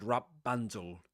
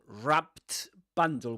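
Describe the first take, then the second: First: The t sound between the words is dropped. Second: The t sound between the words is pronounced. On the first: "they will drop the consonant sound in the middle, the t" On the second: "we've got wrap, p, t, b"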